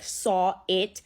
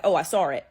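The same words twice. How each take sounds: First: "saw it" slowly, with no r between the words; careful separated vowels. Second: "saw it" run together as "sawr it"; linking r. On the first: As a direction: keep "saw" and "it" apart, vowel to vowel. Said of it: "a vowel ending a word and a vowel beginning a word". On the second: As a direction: slip an r between "saw" and "it". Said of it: "you'll hear me say". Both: Shown as a demonstration.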